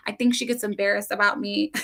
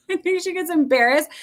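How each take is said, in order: First: Said in the usual way. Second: Repeated through a real laugh, higher; amused, laughing repeat of the same words. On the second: Real, not acted. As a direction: laugh it out at her own daughter. Repeat of line 155 through a laugh.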